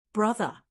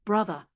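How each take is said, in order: First: Mild rising delight; passionate delight, rising. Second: A touch of joyful crying out; understated delighted cry; passionate delight. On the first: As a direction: let the delight swell on the repeat. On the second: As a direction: call him with mild delight. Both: Acted. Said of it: "crying in a tone of passionate delight".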